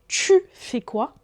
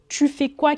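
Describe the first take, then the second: First: The t in tu has a hissing sound. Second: The t in tu is a plain t.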